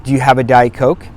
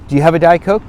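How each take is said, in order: First: Said in the usual way. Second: Asking again, a little higher and brighter-pitched; host in the kitchen asked again, pitch raised; higher retry of the question. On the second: Shown as a demonstration.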